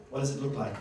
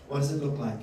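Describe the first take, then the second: No difference in how they are said.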